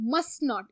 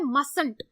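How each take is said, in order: First: Two full words, with the 'not' said clearly. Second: One contracted word with the first t silent. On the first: "दरअसल ये word है मस्ट नॉट" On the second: "इसको पढ़ते हैं मसंट, टी silent हो जाता है"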